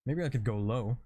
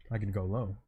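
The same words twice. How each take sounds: First: Said in the usual way. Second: Dropped lower, trying a deep voice. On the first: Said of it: "what kind of voice should I give this guy". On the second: Shown as a demonstration. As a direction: lower the pitch for a character.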